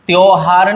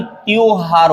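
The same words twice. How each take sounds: First: त्योहार as one glide, tyo-haar; wrong pronunciation. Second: त्योहार opened into tyoo-haar, nearly ti-yoo-haar; correct pronunciation. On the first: Teacher showing the mistake, त्योहार said as tyo-haar. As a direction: say त्योहार as tyohaar. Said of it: "नहीं". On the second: Teacher correcting it, त्योहार said as tyoo-haar. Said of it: "होता है". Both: Shown as a demonstration.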